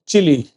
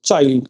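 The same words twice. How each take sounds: First: चिली said as chee-lee, the right way to say the country; चिली, the country's name, not a child; correct name Chile. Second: Put-on चाइल्ड said like the English word child, the version to avoid; चाइल्ड, the mistake the class must not make; wrong form child. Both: Shown as a demonstration. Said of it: "क्या नहीं बोलना?".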